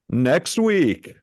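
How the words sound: It is said in a booming announcer voice. "a fake top ten announcer voice"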